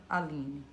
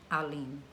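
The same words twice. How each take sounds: Both takes have the same delivery.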